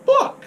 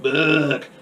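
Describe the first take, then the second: First: Very high, squeaked single word; imitated child's squeak; high squeaky exclamation. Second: Lightly voiced alien parroting; imitated alien echo. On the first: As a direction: squeal it out like an excited kid. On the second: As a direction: echo the word like a little alien. Repeats it as film's alien.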